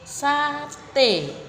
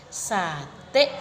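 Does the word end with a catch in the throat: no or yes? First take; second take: no; yes. First: The word ends openly on the vowel. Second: The word ends with a clipped stop.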